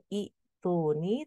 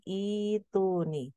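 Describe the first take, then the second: First: "ituni" with the first i cut short before tuni; wrong pronunciation demo. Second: "ituni" with a long smooth opening i; correct long-vowel reading. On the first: Teacher warning trainees how not to read it, short broken first i in "ituni". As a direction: break "ituni" after a short opening i. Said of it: "bukan ituni". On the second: Teacher correcting the reading for trainees, long drawn-out i in "ituni". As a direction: stretch the i and u of "ituni" slowly, without a break. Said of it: "tapi ituni". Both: Shown as a demonstration.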